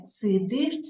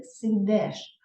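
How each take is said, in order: First: "Сидиш" slowly with final иш; clear и vowel. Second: "сидеш" slowly with final еш; е instead of и. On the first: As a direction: sound out the и ending of "Сидиш". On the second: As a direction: sound out the wrong е ending of "сидеш". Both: Shown as a demonstration.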